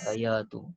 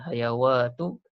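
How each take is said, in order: First: A long a runs straight into the final syllable. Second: A w sound is said before the final syllable. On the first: The speaker calls it right. "tapi hayatu" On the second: The speaker calls it wrong. "Bukan hayawatu"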